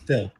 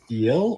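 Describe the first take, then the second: First: The vowel is clipped very short. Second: The vowel is long and gliding. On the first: "shorten that into a very short fill" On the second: "where you have that long morphing diphthong vowel"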